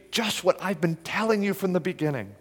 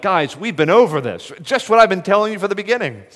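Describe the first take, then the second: First: Softer, gentle invitation; inviting appeal. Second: Exasperated, faster and higher; frustrated. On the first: Jesus gently inviting the Pharisees, soft appeal. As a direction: coax them in kindly. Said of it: "a tone of appeal, invitation". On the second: Jesus exasperated with the Pharisees, frustrated. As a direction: sigh it out like a tired teacher. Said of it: "Was it a tone of frustration". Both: Pretend.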